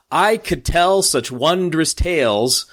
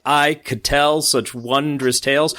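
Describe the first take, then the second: First: Slow, "I", "tell" and "wondrous" hit on the strong beat, each pair leaning forward; trochee stress. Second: Slow, "I", "tell" and "wondrous" punched on the strong beat; trochee stress. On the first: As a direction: read "I could tell such wondrous tales" slowly, pushing the first syllable of each foot. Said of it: "You can hear the stress on the first foot". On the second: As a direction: read "I could tell such wondrous tales" slowly, stressing the first syllable of each foot. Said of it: "We're getting that trochee there". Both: Shown as a demonstration.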